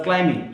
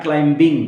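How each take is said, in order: First: Climbing as "cli-ming", no B; only an M in the middle of climbing; silent B. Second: Climbing as "clim-bing", with a hard B; B wrongly sounded. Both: Shown as a demonstration. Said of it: "not climbing".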